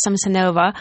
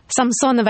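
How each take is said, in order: First: Samsonova said the English way, sam-suh-NO-va; anglicised surname. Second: Samsonova said the Russian way, sam-SO-nuh-va; surname pronounced properly. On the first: Host introducing herself to listeners, anglicised Samsonova. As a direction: say Samsonova with English vowels and late stress. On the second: Host correcting her own surname on air, properly pronounced Samsonova. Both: Shown as a demonstration. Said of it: "I can pronounce my surname properly".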